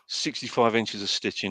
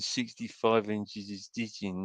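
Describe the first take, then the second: First: The line is delivered with lively expression. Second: The line is delivered flat and wooden. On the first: "one of his lines is" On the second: "it just sounds like an old man saying ... And it sounds so wooden"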